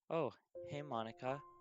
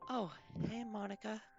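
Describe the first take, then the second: First: It is said in the reader's normal voice. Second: It is said in a put-on Yuri voice.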